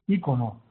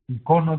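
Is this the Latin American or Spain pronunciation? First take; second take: Latin American; Spain. First: It has the stress pattern used in Latin America. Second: It has the stress pattern used in Spain. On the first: "en América es ícono" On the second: "decimos aquí"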